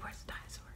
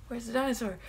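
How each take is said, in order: First: Soft breathy horror hush; hushed whisper. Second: Said in the usual way. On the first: Retold or imitated. Fan whispering to the audience in a horror moment, whispered. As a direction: whisper it like you're hiding from a dinosaur. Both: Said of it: "You're like".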